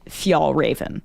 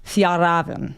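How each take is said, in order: First: The name is said with an American pronunciation. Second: The name is said with a Swedish-style pronunciation. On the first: "in the U S, the the brand staff pronounce it Fjallraven" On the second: "in Sweden and Europe, you're more likely to hear something along the lines of"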